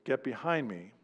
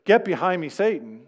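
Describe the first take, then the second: First: Quiet, softer rebuke. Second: Louder, higher stern rebuke; firm rebuke. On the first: Preacher quietly voicing Jesus rebuking Peter. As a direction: say it gently, almost under the breath. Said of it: "how is that gentle to say to Peter". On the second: Preacher voicing Jesus rebuking Peter sternly. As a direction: punch the rebuke out. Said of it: "When Jesus tells Peter". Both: Retold or imitated.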